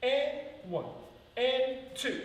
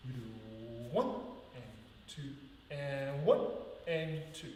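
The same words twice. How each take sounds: First: And one and two sung out high and loud; accent in. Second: Counts with the stress off the beat; accent out. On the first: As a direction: punch the counts, accent in. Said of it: "Accent in, accent in goes". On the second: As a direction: lean out on and. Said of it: "This is the accent out". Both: Shown as a demonstration.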